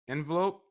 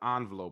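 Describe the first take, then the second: First: The first syllable sounds like "in". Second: The first syllable sounds like "on". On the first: "with the I N" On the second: "with the O N"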